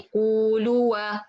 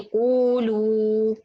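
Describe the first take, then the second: First: An extra aa sound is added at the end. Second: The word ends on a long oo sound. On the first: The speaker calls it wrong. "I don't say قولوا" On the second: The speaker calls it right. "I say قولوا, right? So no alif here"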